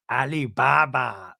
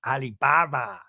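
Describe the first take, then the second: First: Alibaba with a drawn-out, stressed Baba; mock Alibaba, slow; imitating her Alibaba. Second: Mock Alibaba, Baba leaned on; imitating her Alibaba again. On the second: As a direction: repeat Alibaba, stressing Baba. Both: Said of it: "The way she says Baba".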